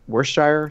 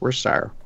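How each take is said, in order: First: It is said in an ordinary American way. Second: It is said in a British way.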